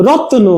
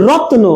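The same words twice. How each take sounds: The two takes are said the same way.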